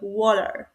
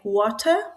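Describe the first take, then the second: First: The T is soft and barely heard. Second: The T is pronounced clearly and fully. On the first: "with um, hardly understandable T sound" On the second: "water with clear T"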